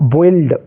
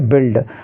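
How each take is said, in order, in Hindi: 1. 'u' का उच्चारण होता है, इसलिए 'oi' स्वर आता है। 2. 'u' साइलेंट है, इसलिए छोटा 'i' स्वर आता है। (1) "कुछ बच्चे क्या पढ़ते हैं इसको? ... बोइल्ड नहीं पढ़ना है" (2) "बिल्ड पढ़ेंगे"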